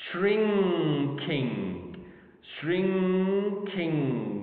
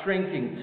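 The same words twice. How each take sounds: First: "Shrinking" drawn out as shrin, then king; syllable by syllable. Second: Said in the usual way. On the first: Shown as a demonstration. Teacher counting syllables for learners, slowly syllable by syllable. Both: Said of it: "two syllables".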